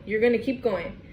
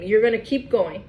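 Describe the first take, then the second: First: "You're gonna keep going" said again, softer; a quieter echo of the line; softer repeat. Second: Said in the usual way. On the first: Shown as a demonstration. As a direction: let the repeat drop in volume. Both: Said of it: "repeated for emphasis".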